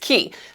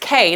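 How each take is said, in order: First: The word rhymes with 'see'. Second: The word rhymes with 'day'. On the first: The speaker calls it right. "No, it's Key" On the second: The speaker calls it wrong. "Cruisers mispronounce it all the time as K"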